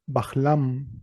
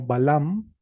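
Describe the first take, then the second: First: An aspirated h sound comes before the l. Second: There is no h sound before the l.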